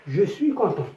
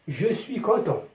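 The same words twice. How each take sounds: No difference in how they are said.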